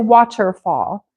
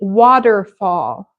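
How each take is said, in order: First: The middle consonant is a clear T. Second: The middle consonant sounds like a soft D. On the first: It sounds very formal. "if you speak with the T all the time, it just sounds very formal" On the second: It sounds casual and natural. "I'm going to say it with a D"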